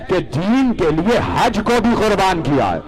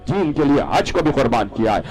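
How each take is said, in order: First: Higher and louder, pressing on بھی; raised emphasis. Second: Said in the usual way. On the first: Acted. Preacher hammers home the sacrifice, raised voice. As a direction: lift حج کو بھی up hard like a preached point.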